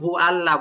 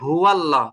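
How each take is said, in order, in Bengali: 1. Hu ও Allah আলাদাভাবে, w ছাড়া বলা হয়। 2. Hu একটি সংযোগকারী w ধ্বনির মাধ্যমে Allah-এর সঙ্গে যুক্ত হয়। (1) "এই যে আপনার ভুলটা একটু লক্ষ্য করুন। কুল হু আল্লাহ বলছেন।" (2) "ওয়াও দিয়ে লামকে মিলিয়ে পড়বেন"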